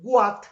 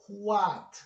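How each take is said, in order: First: It begins with a hard g-like sound. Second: It begins with a breathy h-like sound. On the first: The speaker calls it wrong. "la pronunciamos con la letra G ... nosotros no vamos a decir what" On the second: The speaker calls it right. "lo vamos a pronunciar como si fuera una J ... debemos decir what"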